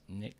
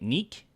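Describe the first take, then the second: First: The name has a short 'i' vowel. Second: The name has a long 'ee' vowel. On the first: The speaker calls it wrong. "I was saying it wrong" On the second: The speaker calls it right. "Sounds French"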